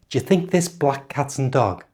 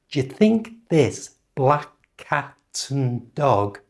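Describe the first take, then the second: First: The sentence is said at normal speed. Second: The sentence is said slowly. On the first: "And now at normal speed" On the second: "Repeat after me"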